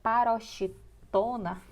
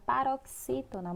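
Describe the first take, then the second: First: Paroxítona slowly with X as "sh"; common mispronunciation. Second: Paroxítona with X as "ks"; correct pronunciation. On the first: Teacher showing what many say, paroxítona slowly mispronounced with SH. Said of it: "muita gente se fala". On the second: Teacher naming the word itself, paroxítona with a clear KS. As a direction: say paroxítona as "pa-rok-SÍ-to-na". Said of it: "a própria palavra paroxítona". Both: Shown as a demonstration.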